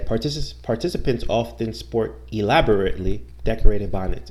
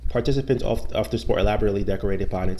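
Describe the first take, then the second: First: The long word is said slowly and carefully. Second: The long word is rushed and said quickly. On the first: The speaker calls it right. "you take your time sounding out the whole word" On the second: The speaker calls it wrong. "instead of trying to say it too fast"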